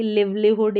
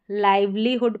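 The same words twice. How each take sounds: First: लिवलीहुड said with a short "i"; "liv" opens लिवलीहुड, as in give; mispronounced example. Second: "lai" opens लाइवलीहुड; correct pronunciation. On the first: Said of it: "इस तरीके से नहीं पढ़ेंगे". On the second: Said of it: "इसको लाइवलीहुड पढ़ेंगे". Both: Shown as a demonstration.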